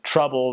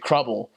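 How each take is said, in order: First: The word begins with a T sound. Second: The word begins with a K sound. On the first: "instead of trouble" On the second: "they might say crubble"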